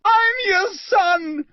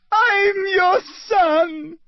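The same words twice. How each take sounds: First: Very high slow scream; desperate high scream, slow. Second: Crying scream. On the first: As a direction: scream up at your father. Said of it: "he screamed up at Crouch". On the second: Boy repeats, sobbing. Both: Acted.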